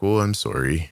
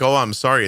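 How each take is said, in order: First: Sorry is drawn out with a sad tone. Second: Sorry is said short and offhand. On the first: The speaker really is sorry. "the way it gets drawn out actually adds to the sorry" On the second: The apology is only a formality. "Not just like"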